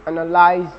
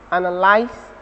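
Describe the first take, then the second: First: "analyze" ending in a voiced buzzing z; American ending with z. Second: "Analyze" ending in a voiceless s, like analyse; British ending with s. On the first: Teacher demonstrating American "analyze" with a voiced z ending. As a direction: say "analyze" with a clear voiced z at the end. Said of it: "and the Americans is voiced". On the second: Teacher demonstrating British "Analyze" with a voiceless s ending. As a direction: say "Analyze" with a crisp hissed s at the end. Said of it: "the British is voiceless". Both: Shown as a demonstration.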